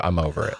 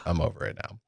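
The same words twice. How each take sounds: First: Said in the usual way. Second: Breathy whispered trailing-off; whispered as if to himself. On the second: Real, not acted. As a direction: let it fade to a whisper.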